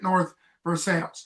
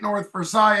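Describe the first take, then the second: First: Versailles is given an English pronunciation. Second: Versailles is given a French pronunciation. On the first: "Everybody else, I think, pronounces it" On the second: "if you're French, you're going to say it"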